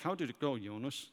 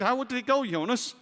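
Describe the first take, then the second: First: It is asked in a reluctant tone. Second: It is asked in an interested tone.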